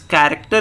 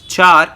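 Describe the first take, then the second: First: It is said as three full syllables. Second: It is said as one short syllable. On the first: The speaker calls it right. "it's character data type" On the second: The speaker calls it wrong. "Please don't pronounce it as char"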